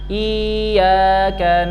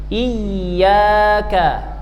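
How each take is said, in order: First: The y sound is light and single. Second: The y sound is pressed and doubled. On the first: The speaker calls it wrong. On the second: The speaker calls it right. "harus dimunculkan bunyi tasydidnya dengan cara menekan suara"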